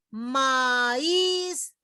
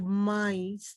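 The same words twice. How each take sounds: First: Maíz en dos sílabas, ma-ÍZ, con la í alargada; hiato marcado. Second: Maíz en una sola sílaba, «MAIS»; diptongo incorrecto. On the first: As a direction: separa la a y carga la í de maíz. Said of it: "se las pronuncia". (maíz estirado, con la í tónica) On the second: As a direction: carga la a de maíz y deja la i débil. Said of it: "no digo maíz". (maíz mal dicho, sin acento en la í) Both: Shown as a demonstration.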